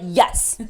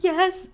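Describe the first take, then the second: First: It sounds confident and sure. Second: It sounds scared and unsure.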